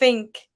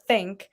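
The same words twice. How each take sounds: First: The word begins with an f sound. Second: The word begins with a th sound. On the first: The speaker calls it wrong. "or like think uh" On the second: The speaker calls it right. "instead of think"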